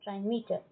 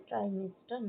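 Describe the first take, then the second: First: "ট্রাইমিটার" said trai-MEE-tar, with no s; corrected reading. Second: "ট্রাইমিটার" misread as trai-MIS-tar, with an added s; misspelt reading. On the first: Teacher correcting a spelling mistake, corrected reading without the s. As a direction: say "ট্রাইমিটার" cleanly, long mee straight into tar. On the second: Teacher showing students a misprint, misspelt reading with an extra s. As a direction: say "ট্রাইমিটার" with a wrong s before the t. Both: Shown as a demonstration. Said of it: "এস টা হবে না".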